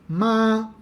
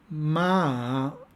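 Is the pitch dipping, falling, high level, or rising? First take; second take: high level; dipping. First: The pitch stays high and level. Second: The pitch dips down and then rises. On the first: It means mother. "con un tono alto" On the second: It means horse. "con un tono descendente-ascendente"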